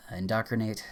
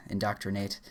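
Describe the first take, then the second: First: Hushed unvoiced "indoctrinate"; whispered. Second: Said in the usual way. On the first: Real, not acted. Reciting a word list.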